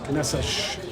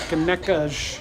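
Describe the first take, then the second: First: The cedilla letter is said with an S sound. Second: The cedilla letter is said with a K sound. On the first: This follows the written spelling. The speaker calls it right. "you pronounce that as a, an S" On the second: This is how people on the islands say it. The speaker calls it wrong. "out there on the islands, we've always said"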